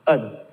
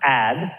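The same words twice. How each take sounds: First: The syllable has a reduced schwa vowel. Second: The syllable has a full 'a' vowel. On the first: The speaker calls it right. "but ad" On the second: The speaker calls it wrong. "not ad"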